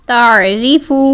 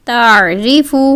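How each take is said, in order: The two takes are said the same way.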